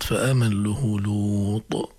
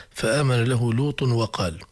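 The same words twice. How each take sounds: First: Slow "لوط" with long uu and released final t; recite, halting on "لوط" with an echoed t; stop on Lut. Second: "لوط" as lutun run straight into "وقال"; linked without stopping. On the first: Teacher shows where to pause, "لوط" drawn out and stopped. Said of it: "قف على كلمة لوط". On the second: Teacher shows the misleading reading, "لوط" linked to "وقال". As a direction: join "لوط وقال" in slow recitation with no pause. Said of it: "لأنه إذا وصلناه الكرام قد يسوء المعنى". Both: Shown as a demonstration.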